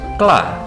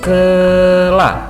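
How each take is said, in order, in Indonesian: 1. Diucapkan cepat, menjadi satu suku kata yang rapat. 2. Diucapkan pelan, bunyinya terpisah-pisah. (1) "sampai bisa cepat" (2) "Mulai pelan-pelan dulu"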